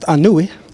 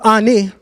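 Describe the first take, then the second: First: The name is said with three syllables, ending 'noo-ee'. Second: The name is said with two syllables, ending 'nee'. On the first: The speaker calls it right. "or better pronounced Anui" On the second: The speaker calls it wrong. "Ani is not how you pronounce his name"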